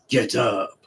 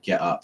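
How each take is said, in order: First: It is said with a French accent. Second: It is said with a plain English accent. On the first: "what he should have said was "get up," like that. ... in a French accent" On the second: "The referee said"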